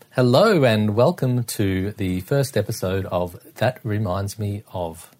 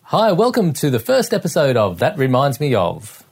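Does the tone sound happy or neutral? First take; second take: neutral; happy. First: It is said in a plain, neutral tone. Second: It is said in a brighter, happier tone.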